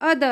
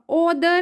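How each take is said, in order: First: The first vowel sounds like 'uh'. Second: The first vowel sounds like 'oh'. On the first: The speaker calls it right. "अदर आएगा" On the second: The speaker calls it wrong. "ओ नहीं आएगा, ओदर नहीं आएगा"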